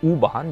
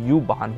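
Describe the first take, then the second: First: The first letter is said as 'oo'. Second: The first letter is said as 'you'. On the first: This is how locals say it. "पर ये लोग ऊ प्रोनाउंस करते हैं" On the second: This is how the letter would be read in English. "जो कि यू वाहन होता है"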